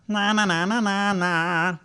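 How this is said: A dull sound with the tongue pulled back. The speaker calls it wrong. "That's a bad backwards placement"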